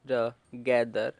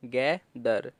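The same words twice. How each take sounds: First: Slow blend. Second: Said in the usual way. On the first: Shown as a demonstration.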